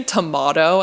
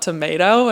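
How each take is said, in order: First: Tomato said tuh-MAH-toh; Australian pronunciation. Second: Tomato said tuh-MAY-toh; American pronunciation. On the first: Visiting friend questions her new word, Australian "tuh-MAH-toh" for tomato. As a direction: say tomato with an "ah" in the middle. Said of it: "did you say tomato and not". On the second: Visiting friend expects the American word, "tuh-MAY-toh" for tomato. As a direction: say tomato with an "ay" in the middle. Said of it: "and not tomato". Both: Retold or imitated.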